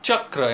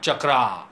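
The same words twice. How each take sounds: First: The final syllable is cut short. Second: The final syllable is drawn out long. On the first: The speaker calls it right. "the last syllable is cut short" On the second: The speaker calls it wrong. "not Chakra"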